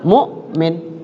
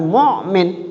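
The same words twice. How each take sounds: First: The middle consonant is a plain glottal stop. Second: The middle consonant is a squeezed throat sound. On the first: The speaker calls it right. "Dia di dada aja dikeluarnya hamzah tuh" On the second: The speaker calls it wrong.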